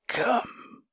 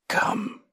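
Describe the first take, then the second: First: High croaking ghoul voice. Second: Breathless croaking ghoul voice. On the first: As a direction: croak it like a grotesque monster. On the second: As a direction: rasp it out like a grotesque monster. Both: A narrator's reading. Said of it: "croaked the ghoul".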